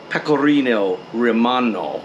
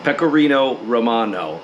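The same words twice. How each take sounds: First: "pecorino romano" said quickly in a Texan accent, "romano" with a short, flattened first o; casual American. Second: "Pecorino romano" said deliberately, each syllable clear, with a rounded o in "romano"; careful Italian. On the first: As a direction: toss off "pecorino romano" the Texan way, unhurried about the Italian. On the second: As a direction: pronounce "Pecorino romano" properly, like an Italian would. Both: Shown as a demonstration. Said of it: "I'm gonna pronounce things right here".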